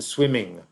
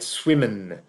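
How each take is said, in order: First: The ending is an ng sound. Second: The ending is a plain n sound. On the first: "to represent the sound ing" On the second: "That's pronounced n"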